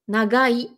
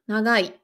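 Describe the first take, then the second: First: The middle consonant is a hard G sound. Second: The middle consonant is a nasal, N-like sound. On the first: "je vais essayer de forcer" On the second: "Donc presque comme un N"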